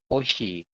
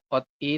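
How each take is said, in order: First: The word is said with an sh sound. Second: The word is said with a t sound. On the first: The speaker calls it right. "tapi oshi" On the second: The speaker calls it wrong. "Bukan ot I"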